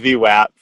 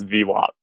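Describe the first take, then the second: First: The A in the word sounds hard. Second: The A in the word sounds soft. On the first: This is how the speaker used to say it. "I used to say V WAP" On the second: This is how everyone at the firm says it. "you pronounce V WAP with a soft A"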